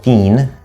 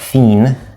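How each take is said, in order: Both takes have the same delivery.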